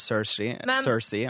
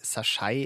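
First: The name is said with an English-style pronunciation. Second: The name is said with a Norwegian-style pronunciation. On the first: The speaker calls it right. "i stedet for Cersei" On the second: The speaker calls it wrong. "jeg har en tendens til å si Cersei"

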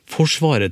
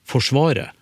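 First: The stress is on the first syllable. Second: The stress is on the second syllable. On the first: "Hvis jeg sier ordet forsvaret, så har jeg trykk på første stavelse" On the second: "Plutselig hopper trykket i forsvaret til forsvaret"

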